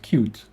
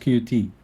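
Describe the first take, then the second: First: The name is said as one word. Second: The name is said as two letters. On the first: The speaker calls it right. "They want you to call it cute" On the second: The speaker calls it wrong. "not Q T"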